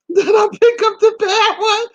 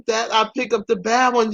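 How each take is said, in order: First: High, loud squeal of laughter through the words; shrieky, incredulous laughing delivery; laughing hard. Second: Said in the usual way. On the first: Real, not acted. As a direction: crack up while getting it out. Laughing at her own choice.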